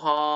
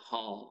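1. พยางค์นี้มีเสียงตก 2. พยางค์นี้มีเสียงต่ำ (1) "ไม้โทห่อ" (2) "ไม้เอกหอ"

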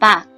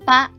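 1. พยางค์นี้ออกเสียงเป็นเสียงต่ำ 2. พยางค์นี้ออกเสียงเป็นเสียงสูง (1) "ได้แก่เสียงเอก" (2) "เสียงตรี"

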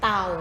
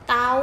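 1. พยางค์นี้มีเสียงต่ำ 2. พยางค์นี้มีเสียงสูง (1) "เสียงเอก" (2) "เสียงตรี"

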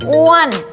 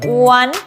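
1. เสียงขึ้นสูงแล้วตก 2. เสียงสูงและขึ้น (1) "อ้วนไม้โทอ้วน" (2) "อ้วนไม้ตรีอ้วน"

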